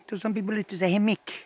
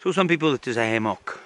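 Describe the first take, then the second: First: "hammock" said hamik, short i sound, higher and softer with a rising end. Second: "hammock" said hamok, open aw vowel at the end. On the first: Camper explaining how other people say "hammock": hamik, rising. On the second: Camper explaining how some people say "hammock": hamok. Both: Shown as a demonstration.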